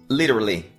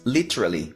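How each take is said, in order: First: The middle T is softened. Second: The middle T is clearly pronounced. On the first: This is how she does not say it. "ela não diz literally" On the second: This is how she says it. "diz literally"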